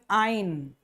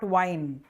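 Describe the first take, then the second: First: The suffix begins with a plain vowel sound. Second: The suffix begins with a consonant glide sound. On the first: The speaker calls it right. "I pronounce this as ein" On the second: The speaker calls it wrong. "not wine"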